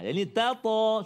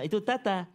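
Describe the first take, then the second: First: The second syllable uses a heavy, emphatic t sound. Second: Both syllables use a thin, light t sound. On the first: The speaker calls it right. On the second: The speaker calls it wrong. "Dua-dua ta"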